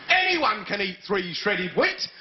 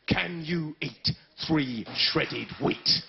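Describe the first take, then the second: First: Said in the usual way. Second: Mock advert voice. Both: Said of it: "They tell lies".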